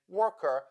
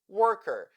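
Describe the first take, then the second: First: It ends with a weak schwa sound. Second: It ends with an r-colored er sound. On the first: "in British and Australian accents" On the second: "in the American accent"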